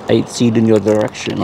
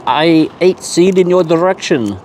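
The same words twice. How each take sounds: First: Lower, half-hearted attempt at French accent; failed French accent. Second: Higher-pitched, put-on French accent; mock French accent. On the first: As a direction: try a French accent and barely manage it. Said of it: "can't even say it in Fr". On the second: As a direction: play Bob with a silly French accent. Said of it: "do that in a French accent".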